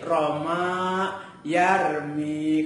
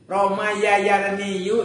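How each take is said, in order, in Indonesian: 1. Huruf-huruf lemah itu dihilangkan dan disingkat. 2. Huruf-huruf lemah itu diucapkan penuh. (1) "menjadi mudah" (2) "berat di lidah"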